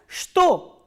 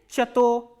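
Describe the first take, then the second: First: The word starts with a sh sound. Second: The word starts with a ch sound. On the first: The speaker calls it right. "thus this word is pronounced as shto" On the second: The speaker calls it wrong. "not like chato"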